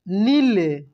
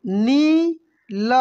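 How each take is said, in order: First: Said in the usual way. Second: नील stretched very slowly with a long ई; drawn out. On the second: Shown as a demonstration. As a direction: hold the vowel of नील long. (नील को खींचकर बोलिए) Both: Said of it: "कैसे पढ़ेंगे?".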